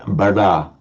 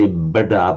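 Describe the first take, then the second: First: The middle consonant is a retroflex l-like sound. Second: The middle consonant is a clear d sound. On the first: The speaker calls it right. "where it becomes like a, a retroflex L sound" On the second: The speaker calls it wrong. "you don't say bada"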